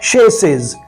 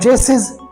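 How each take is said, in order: First: The word begins with an 'sh' sound. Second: The word begins with a 'ch' sound. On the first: The speaker calls it right. "इसकी pronunciation है शेसिस" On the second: The speaker calls it wrong. "आप कहेंगे इसका माना है चेसिस, जो कि गलत है"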